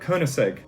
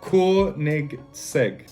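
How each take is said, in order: First: It is said with a plain English accent. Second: It is said with a Swedish-sounding accent. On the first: The speaker calls it wrong. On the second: The speaker calls it right.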